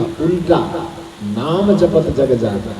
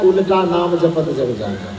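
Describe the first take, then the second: First: Slow "उल्टा", break, then "नाम जपत जग जाना"; pause after उल्टा. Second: "उल्टा नाम जपत जग जाना" run together; no pause after उल्टा. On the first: Teacher giving the saint's true reading, slow with pause after "उल्टा". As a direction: set "उल्टा" apart from "नाम", slowly. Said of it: "उल्टा के बाद अल्प विराम". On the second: Teacher showing the misreading of the verse, "उल्टा नाम" joined without pause. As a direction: join "उल्टा" straight onto "नाम". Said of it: "Goswami जी ने ये नहीं कहा". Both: Shown as a demonstration.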